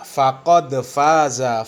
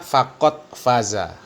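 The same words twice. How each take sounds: First: The d of faqad has an echoing bounce. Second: The d of faqad is held without bounce. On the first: The speaker calls it right. "Harusnya di ujung ayat itu beliau membaca" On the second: The speaker calls it wrong. "tapi beliau membaca faqad faza, ya. Jadi tidak dikolkolahkan"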